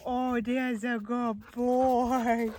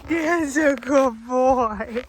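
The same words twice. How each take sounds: First: Whispered dog praise. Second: Slow, loud, squeaky cooing praise; squeaky praising a dog. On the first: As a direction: breathe the praise gently. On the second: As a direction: gush over the dog. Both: Real, not acted.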